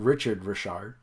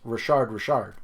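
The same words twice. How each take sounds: First: The name is said with an English pronunciation. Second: The name is said with a French pronunciation. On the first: The speaker calls it wrong. "It's not Richard Richard" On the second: The speaker calls it right. "if you go up to a French person, it's Richard Richard"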